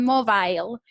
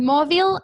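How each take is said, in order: First: "mobile" ending in a long bile, like the word aisle. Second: "mobile" ending in a short bil, loud and rising. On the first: Teacher contrasting two ways of saying "mobile", second MO-bile. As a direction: say "mobile" as MO-bile, rhyming with smile. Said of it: "hay personas que la pronuncian mobile". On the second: Teacher contrasting two ways of saying "mobile", first MO-bil. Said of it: "Hay personas que la pronuncian mobile". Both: Shown as a demonstration.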